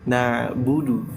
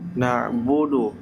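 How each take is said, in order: First: The vowels sound like a rounded u. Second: The vowels sound like an open o. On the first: The speaker calls it right. "tapi nah budu" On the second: The speaker calls it wrong. "Jadi bodoh"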